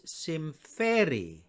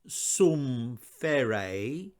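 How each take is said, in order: First: The first vowel is an 'ee' sound. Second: The first vowel is an 'oo' sound. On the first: The speaker calls it right. "it's an E sound" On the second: The speaker calls it wrong. "it's not an U"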